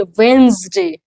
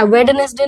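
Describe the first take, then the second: First: "वेंसडे" as WENZ-day, slow, no first d; model pronunciation. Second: "वेडनेसडे" as wed-ness-de, first d sounded; wrong pronunciation. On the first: Teacher correcting the class, "वेंसडे" slowly as WENZ-day. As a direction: stretch "वेंसडे" into two falling syllables. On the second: Teacher rejecting learners' reading, "वेडनेसडे" as wed-ness-de. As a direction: say "वेडनेसडे" letter by letter in three syllables. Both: Shown as a demonstration. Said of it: "वेडनेसडे नहीं".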